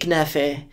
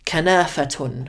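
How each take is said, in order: First: Levantine form, ending in an 'e' sound. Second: Standard Arabic form, ending in '-atun'. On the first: "they say iknafe" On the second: "instead of kanafatun"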